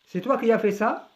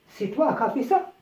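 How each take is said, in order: First: Qui is said with its i sound. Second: The i of qui is dropped before as. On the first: This is the bookish form. "في الكتاب تنطق هكذا" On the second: This is everyday spoken French. "حذفنا le i"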